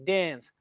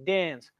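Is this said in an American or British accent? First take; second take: American; American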